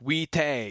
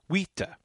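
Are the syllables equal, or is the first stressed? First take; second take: equal; first stressed. First: Both syllables get equal, full weight. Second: The first syllable is stressed, the second a light schwa. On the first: The speaker calls it wrong. "it's not like two equal syllables" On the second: The speaker calls it right. "Stress heavily on the first syllable, but then it just a little bounce on the second syllable"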